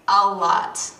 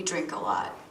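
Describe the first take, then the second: First: "a lot" loud and drawn out; stress on A LOT. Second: Said in the usual way. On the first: Acted. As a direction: punch "a lot" slowly, louder. Repeats it for emphasis.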